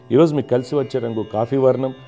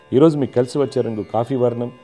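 The two takes are said the same way.

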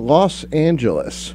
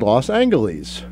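First: It uses the modern everyday pronunciation. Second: It uses an older, dated pronunciation. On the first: This is how people say it now. "what we say today" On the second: This is how people said it long ago. "if you listen to old recordings, people said Los Angeles"

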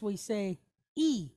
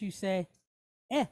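First: The vowel is a high 'ee' sound. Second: The vowel is a mid 'eh' sound. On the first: This is the English pronunciation. "In English, we say E" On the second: This is the Spanish pronunciation. "but in Spanish, you say E"

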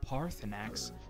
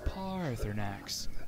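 First: The first A vowel is short. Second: The first A vowel is drawn out long. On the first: The speaker calls it wrong. "It's not Parthenax" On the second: The speaker calls it right. "That's an elongated A"

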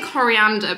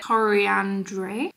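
First: It is said like the English word coriander. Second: It is said with a French-style ending. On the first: The speaker calls it wrong. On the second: The speaker calls it right.

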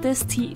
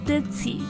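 First: The middle consonant sounds like s. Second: The middle consonant sounds like z. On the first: The speaker calls it wrong. "不要读成ditzy" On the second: The speaker calls it right. "而是ditzy"

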